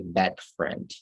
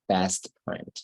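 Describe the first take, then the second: First: The s sound in 'best' is dropped. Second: The s sound in 'best' is clearly heard. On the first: The speaker calls it wrong. "you're mispronouncing it when you say best friend" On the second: The speaker calls it right. "It's best friend"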